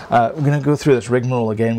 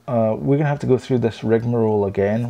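First: Said in the usual way. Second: Muffled behind a hand; hand over mouth. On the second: Real, not acted. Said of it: "I put my hand over my mouth there".

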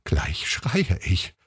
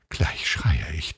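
First: Very slow, drawn-out inner voice; slow, barely contained urge to scream; mounting tense thought. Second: Slow inner voice at usual pitch; restrained first warning to oneself; tense thought. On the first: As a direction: repeat it more strained, stretching each word. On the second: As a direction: think it to yourself, slowly and contained. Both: A narrator's reading. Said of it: "dachte sie".

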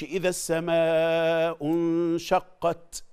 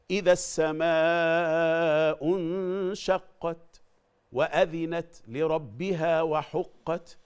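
First: Slow high chant, overdone puff on the ت of "انشقت"; exaggerated hams. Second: High, slow chant with slight t release in "انشقت" and "وحقت"; moderate hams. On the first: Teacher showing what not to do, chanted with exaggerated t release in "انشقت". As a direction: overdo the breath after the final t in "انشقت". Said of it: "مش عايزين نبالغ في الهمس". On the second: Teacher modelling correct recitation, gentle breath on t in "انشقت". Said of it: "فيكفي أن تسمعه أنت". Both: Shown as a demonstration.

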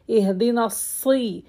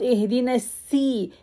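First: اهدنا الصي with a heavy emphatic ṣ; heavy ṣad. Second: اهدنا السي with a thin s; wrong light si. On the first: Teacher modelling the emphatic ṣad. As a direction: darken the ṣ in الصي. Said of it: "Not si". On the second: Teacher showing students' mistake. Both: Shown as a demonstration.

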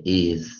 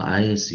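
First: "is" ending in a voiced z; IS with Z sound. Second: "is" ending in a voiceless s; IS with S sound. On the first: Teacher contrasting two readings, "is" with z. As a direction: say "is" with a buzzing z at the end. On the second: Teacher contrasting two readings, "is" with s. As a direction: say "is" with a hissed s at the end. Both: Shown as a demonstration. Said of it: "有时候念is".

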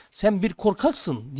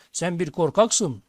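First: Slow, higher, raised taunt; mild angry shout. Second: Raised echo, a little less forceful; echoed shout. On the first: Annoyed boy yells at the mountain, mild angry shout. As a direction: call the insult out slowly. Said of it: "diye tekrar bağırıyor". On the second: Mountain answers the boy, echoed mild shout. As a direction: hand the insult back like an echo. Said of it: "Dağdan gelen ses". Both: A narrator's reading.

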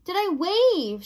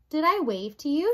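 First: High, loud question; raised-voice princess question; shouted repeat. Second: Lightly voiced, higher question; rising question, not shouted; princess asking. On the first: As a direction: repeat it louder for poor ears. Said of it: "shouted the princess". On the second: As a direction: ask it as the young princess. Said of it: "asked the princess". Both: A narrator's reading.

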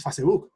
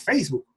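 First: "Facebook" with the first e sounded, fa-se-buk; letter-by-letter Spanish reading. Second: "Facebook" in two syllables, feis-buk; Spanish-style English loan. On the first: Teacher showing what nobody says, spelled-out fa-se-buk. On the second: Teacher contrasting ways to say a loanword, feis-buk pronunciation. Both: Shown as a demonstration. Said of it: "No dices Facebook".

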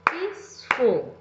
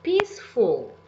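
First: "Peaceful" split into two distinct beats; "Peaceful" measured out for counting; syllable by syllable. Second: Said in the usual way. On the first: Shown as a demonstration. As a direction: say "Peaceful" with a gap between the syllables. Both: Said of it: "to identify how many syllables".

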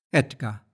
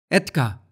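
First: Motherly. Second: A mildly raised call of "Edgar", falling; mother's cry. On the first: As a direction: call his name as gently as a mother can. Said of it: "begann sie möglichst mütterlich". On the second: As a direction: cut him off with a half-voiced cry of "Edgar". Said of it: "schrie die Mutter". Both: A narrator's reading.

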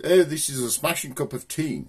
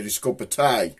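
First: Mock posh. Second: Broad Black Country accent, flat "tea" like "tie". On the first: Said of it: "a posh person". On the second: Shown as a demonstration. Showing the local way to the audience, in a broad Black Country accent. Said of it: "to anybody around from round here".

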